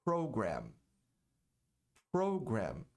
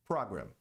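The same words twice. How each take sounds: First: Program in English, PRO stressed, lower; program, model pronunciation; correct program. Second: Program said Brazilian style like problem; program, typical Brazilian error; wrong program. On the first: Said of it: "A pronúncia correta é". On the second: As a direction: program with Portuguese vowels. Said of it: "A maioria das pessoas diz". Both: Shown as a demonstration.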